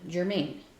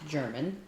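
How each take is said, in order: First: It is said like 'Germain', ending in 'main'. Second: It is said like the word 'German'. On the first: This is how everyone locally says it. The speaker calls it right. "it is pronounced by everyone Germain" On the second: This is how the spelling suggests it is said. The speaker calls it wrong. "not pronounced German"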